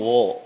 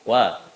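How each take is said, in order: First: The vowel sounds heavy and rounded, like o. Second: The vowel sounds light and open, like a. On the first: The speaker calls it wrong. "Jangan wo dulu" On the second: The speaker calls it right. "kalau wawunya sudah tebal, eh sudah tipis"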